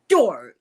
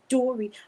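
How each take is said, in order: First: The first D sound is hard and forceful. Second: The first D sound is soft and ordinary.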